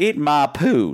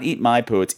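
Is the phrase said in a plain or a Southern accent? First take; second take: Southern; plain. First: It is said with a Southern American accent. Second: It is said without a Southern accent. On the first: "the knocker is somehow Southern, because he's like"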